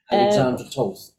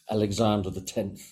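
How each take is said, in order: First: The surname sounds like 'Toth'. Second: The surname sounds like 'the tenth'. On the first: The speaker calls it right. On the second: The speaker calls it wrong.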